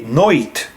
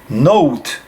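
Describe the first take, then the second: First: The vowel is an oi diphthong. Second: The vowel is o gliding into a w sound.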